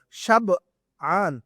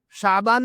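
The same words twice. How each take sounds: First: شبعان drawn out in two parts, "shab... 'aan"; ba before ain. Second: شعبان as "shaa-baan", long first vowel; the month's pronunciation. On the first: Teacher spells out the word for a student, slow split syllables. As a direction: break after the b of شبعان, then a slow long ain. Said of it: "با اور اس کے بعد عین". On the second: Teacher rules out the Ramzan-related month name, long first vowel. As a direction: say شعبان smoothly, no break after the b. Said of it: "رمضان والا شعبان نہیں". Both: Shown as a demonstration.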